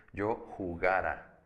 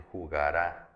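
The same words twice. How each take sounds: First: Slow "jugara", weight on GA, unstressed final A; stress on middle syllable. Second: Jugará with the last syllable stressed; stress on final A. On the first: Teacher contrasting two tenses, stress on GA in jugara. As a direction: say jugara with GA stressed and the ending light. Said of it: "yo le pongo un acento en la última A". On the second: Teacher showing the future tense, stress on the final A of jugará. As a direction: throw the weight onto the closing RÁ of jugará. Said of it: "le pongo un acento en la última A". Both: Shown as a demonstration.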